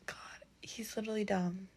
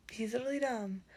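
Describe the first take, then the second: First: Soft exasperated whisper. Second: Said in the usual way. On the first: Real, not acted. Vlogger confides to viewers that Cassian is dumb, whispering. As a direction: drop to a whisper to slag him off.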